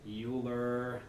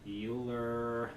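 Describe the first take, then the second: The two takes are said the same way.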